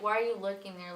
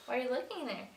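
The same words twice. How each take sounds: First: Plain-pitched mock challenge, no flirting; not flirty. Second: Higher-pitched, lightly flirty question. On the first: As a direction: ask it straight, without any playful lift. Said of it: "Not even like". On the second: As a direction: ask it like a playful flirt. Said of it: "flir-, flirty". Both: Shown as a demonstration.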